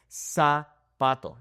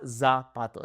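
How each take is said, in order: First: Slow zapato starting with a plain s; clean S sound. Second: Zapato with a buzzing English z. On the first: Teacher contrasting the right and wrong sound. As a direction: say zapato like sapato. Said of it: "not zapato". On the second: Teacher contrasting the wrong and right sound. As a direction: start zapato with a voiced z, slowly. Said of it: "That's incorrect". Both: Shown as a demonstration.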